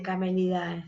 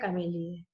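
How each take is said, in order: First: The ending is pronounced as 'ai'. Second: The ending is pronounced as a plain 'e'. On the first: The speaker calls it wrong. "No se dice camelidae" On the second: The speaker calls it right. "se dice familia camélide"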